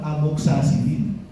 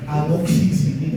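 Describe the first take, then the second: First: The vowel after amox is an a sound. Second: The vowel after amox is an i sound. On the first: The speaker calls it wrong. "que a veces ustedes lo llaman amoxacilina. Suena horrible" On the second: The speaker calls it right. "Ojo con amoxicilina"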